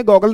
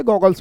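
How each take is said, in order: First: गॉगल said without the final s, as a wrong singular; the wrong form गॉगल, ending on l. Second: गॉगल्स said with a clear final s; the right form गॉगल्स, ending on s; गॉगल्स with the plural s sounded; correct form. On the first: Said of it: "गॉगल नहीं बोलते". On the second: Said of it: "गॉगल्स बोलते हैं". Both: Shown as a demonstration.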